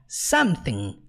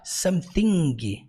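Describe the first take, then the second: First: No final G sound is pronounced. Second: A final G sound is pronounced. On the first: The speaker calls it right. "você nunca pronuncia a letra G" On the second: The speaker calls it wrong. "você não fala something"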